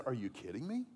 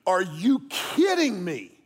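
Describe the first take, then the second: First: Said in the usual way. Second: Slow, drawn-out, louder disbelief at another driver; exasperated outburst. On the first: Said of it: "I said". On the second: Retold or imitated. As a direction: stretch it out like you can't believe that driver. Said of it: "but I went".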